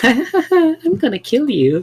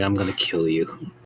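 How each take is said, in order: First: It is said cheerfully and lightly. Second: It is said coldly and menacingly.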